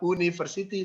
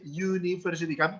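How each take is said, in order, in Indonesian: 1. Kata itu diawali dengan bunyi vokal biasa. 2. Kata itu diawali dengan bunyi y. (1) "Bukan university" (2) "seperti menggunakan kata atau huruf Y"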